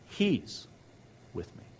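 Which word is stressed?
he. The stress falls on the word 'he'. God is the one present with the speaker. The speaker calls it right. "It's okay because he's with me. It's all about him"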